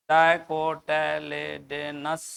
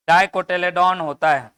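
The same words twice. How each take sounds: First: dicotyledonous drawn out slowly, syllable by syllable; slow term. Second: Said in the usual way. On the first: Shown as a demonstration. Teacher spelling out the term for students, slow and deliberate. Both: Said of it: "डाइकोटिलेडोन समझता है".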